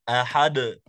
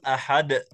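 First: The final d releases with an open echo. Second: The final d ends in a glottal catch. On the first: The speaker calls it right. "إنما هو الصوت يكون بتباعد المخرج" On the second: The speaker calls it wrong. "لا نقول أحد ... هذه الهمزة إخراجها خطأ"

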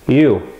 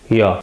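First: The word has a full 'oo' vowel. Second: The word is reduced to a short 'ya'.

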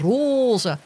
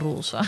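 First: The o vowel is said long. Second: The o vowel is said short. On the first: This is how people in one region say it. "hier in West-Friesland zeggen mensen roze" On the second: This is how the speaker's own group says it. "Gewoon met een korte o"

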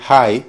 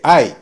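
First: The word starts with an audible h sound. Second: The word starts with no h sound. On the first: "En lugar de decir high para alto" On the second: "dice I"

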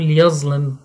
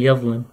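First: It is pronounced with a colloquial dialect pronunciation. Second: It is pronounced with classical recitation pronunciation. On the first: The speaker calls it wrong. "فيقول يظلم" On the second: The speaker calls it right. "بدل"

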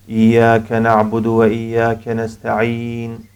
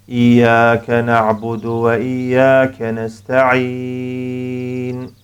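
First: The final vowel is held only briefly. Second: The final vowel is held moderately long. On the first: "Hızlı okuyoruz mesela" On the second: "şeklinde 4 hareke"

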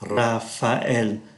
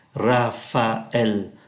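First: The a and e are said as separate vowels. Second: The same.

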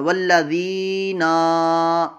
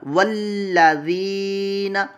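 First: The final na is drawn out long. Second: The final na is kept short. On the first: The speaker calls it wrong. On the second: The speaker calls it right.

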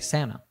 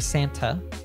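First: The t after n is dropped. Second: The t after n is clearly pronounced. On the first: "we'll say Santa" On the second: "we don't say Santa in American English"

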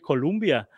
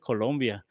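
First: The second vowel sounds like 'u'. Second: The second vowel sounds like 'o'. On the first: A place in the United States is meant. The speaker calls it wrong. "los gringos Colombia la pronuncian como Columbia" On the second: The South American country is meant. The speaker calls it right. "nosotros somos de Colombia"

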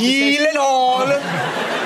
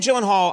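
First: The name is said with a Swedish pronunciation. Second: The name is said with an English pronunciation. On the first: "that is actually the pronunciation of my last name" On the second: "I never know if I'm pronouncing it correctly"

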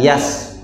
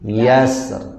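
First: The final r is dropped completely. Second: The final r is sounded only very lightly. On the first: The speaker calls it wrong. "atau tidak yas" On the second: The speaker calls it right. "ada huruf ro-nya sedikit sekali"

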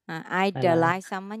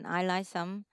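First: The d sound after I is clearly heard. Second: The d sound after I is dropped.

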